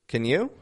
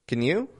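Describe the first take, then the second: No difference in how they are said.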